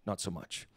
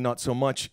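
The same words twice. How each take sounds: First: "not so much" dropped much softer, dry and flat in tune; dry deadpan. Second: Said in the usual way. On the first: Shown as a demonstration. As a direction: throw away "not so much" as a wry understatement.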